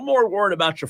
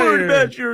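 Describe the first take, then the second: First: It is said in the speaker's own natural voice. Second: It is said in a put-on imitation voice.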